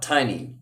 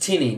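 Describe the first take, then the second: First: The first vowel is long, as in 'tie'. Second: The first vowel is short, as in 'tin'. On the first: The speaker calls it wrong. "not Tiny. Don't uh, don't pronounce it like Tiny Cox" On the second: The speaker calls it right. "he's Tinny"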